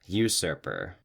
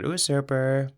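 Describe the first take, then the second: First: "Usurper" with an opening "you" sound; correct pronunciation. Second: "usurper" with an opening "oo" sound; mistaken pronunciation. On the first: Host echoing the co-host's correction, "Usurper" said "you-surper". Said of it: "How do you say one who does that". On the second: Host admitting the mistake, "usurper" said "oo-surper". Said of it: "I would have said usurper". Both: Shown as a demonstration.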